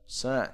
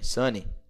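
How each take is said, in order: First: The word ends cleanly on the n sound. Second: The word ends with an added ee sound. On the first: The speaker calls it right. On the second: The speaker calls it wrong.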